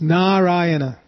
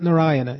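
First: Two A vowels in the name are long. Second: The A vowels in the name are short. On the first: The speaker calls it right. "Two long A's" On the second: The speaker calls it wrong. "It's not Narayana"

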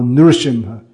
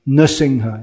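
First: The r is followed by an oo-like vowel. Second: The r is said with no vowel after it. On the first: "millions of people say ru" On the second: "mostly now people just don't pronounce it at all"

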